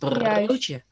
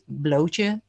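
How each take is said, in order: First: The second sound is a clear, strong r. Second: The second sound is an l. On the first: The speaker calls it right. "En dan maak je die rrr even duidelijk" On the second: The speaker calls it wrong. "Dus jij zegt blootje"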